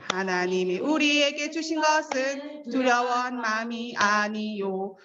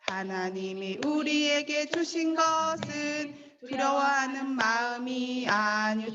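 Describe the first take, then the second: First: It is said fast. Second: It is said slowly.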